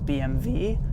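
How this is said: The letters are said the German way.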